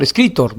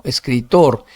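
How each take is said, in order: First: Escritor stressed on CRI, TOR short; wrong middle-syllable stress. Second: Escritor slower, TOR held and stressed; correct final stress. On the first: Teacher trying the wrong version, CRI stressed in escritor. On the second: Teacher correcting the wrong version, TOR stressed in escritor. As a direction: land long on TOR in "escritor". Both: Shown as a demonstration. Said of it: "no, escritor".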